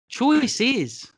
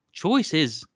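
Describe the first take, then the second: First: Choice is said higher and drawn out like Kiwi slang. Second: Said in the usual way. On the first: Shown as a demonstration. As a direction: stretch the word choice with a rising pitch. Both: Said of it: "I should say".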